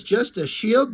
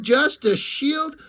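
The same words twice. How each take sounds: First: A touch higher, throwing the words back; offended echo. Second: "just a shield" much higher and slow, stretched out in mock hurt; drawn-out wounded echo. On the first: Acted. The shield echoes Dork's jab, mildly offended. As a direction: repeat the insult back, hurt and indignant. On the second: The shield sulks back at Dork, high and drawn out. Shield repeats Dork's insult, offended.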